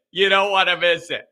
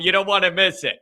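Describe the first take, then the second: First: Laughing. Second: Said in the usual way. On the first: Real, not acted. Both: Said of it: "repeat with laugh".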